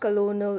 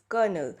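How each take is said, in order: First: Every letter is sounded as it is spelled. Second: It is not sounded the way it is spelled. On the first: The speaker calls it wrong. "So it's not colonel" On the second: The speaker calls it right. "not pronounced as C O L O N E L but colonel"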